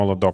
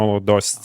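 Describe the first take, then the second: First: The name ends with a 'kt' sound. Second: The name ends with an 'st' sound. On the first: The speaker calls it wrong. "not like Molodokt" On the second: The speaker calls it right. "we have to say Molodost"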